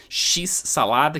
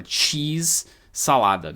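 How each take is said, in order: First: "X-salada" slowly, as "shis-salada"; Brazilian x-salada. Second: "Cheese-salada" slowly, with a hard tch in "Cheese"; English cheese. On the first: Teacher saying the Brazilian snack name slowly. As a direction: stretch out "X-salada" with the sh sound. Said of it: "colocou um X". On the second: Teacher giving the English cheese in the snack name. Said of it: "querendo dizer queijo-salada". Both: Shown as a demonstration.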